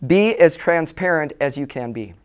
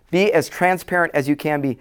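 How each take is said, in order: First: Slow, deliberate "Be as transparent as you can be" with weight on "Be"; slow emphasis. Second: Said in the usual way. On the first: Shown as a demonstration. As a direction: lean hard on "Be", spacing every word out.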